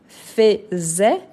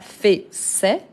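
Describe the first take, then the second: First: The middle consonant is a buzzing z sound. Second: The middle consonant is a hissing s sound. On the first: The speaker calls it right. "le S, entre voyelles, il a les sons de Z" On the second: The speaker calls it wrong. "et pas"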